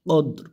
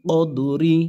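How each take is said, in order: First: The word ends on the r consonant. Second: The word ends with a short i vowel. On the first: "অক্ফের কারণে কি হবে" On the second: "রজের রি"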